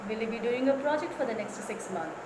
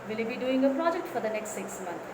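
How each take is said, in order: Both takes have the same delivery.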